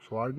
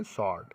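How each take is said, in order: First: स्वॉर्ड with an audible w; wrong pronunciation. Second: स्वॉर्ड said as "sord"; silent w. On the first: Teacher showing students what not to say, w sounded. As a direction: say स्वॉर्ड as spelt, w pronounced after the s. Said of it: "नहीं पढ़ेंगे". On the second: Teacher answering own question for students, w left silent. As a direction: say स्वॉर्ड with no w after the s. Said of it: "क्या पढ़ेंगे". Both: Shown as a demonstration.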